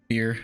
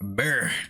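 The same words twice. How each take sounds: First: It is said in his normal accent. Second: It is said in a deep Southern accent.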